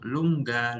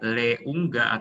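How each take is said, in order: First: The e vowel merges straight into the ending. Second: The e vowel is said separately before the rest. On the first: The speaker calls it right. "tapi langsung lungga" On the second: The speaker calls it wrong. "Jadi bukan leungga"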